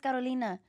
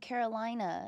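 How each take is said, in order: First: The name is said with a Spanish accent. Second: The name is said with an English accent.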